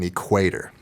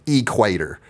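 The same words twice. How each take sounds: First: The stress is not on the first syllable. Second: The stress is on the first syllable. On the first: This is how people outside Texas say it. "instead of" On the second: This is how people in Texas say it. "the emphasis is always on the first syllable of every word"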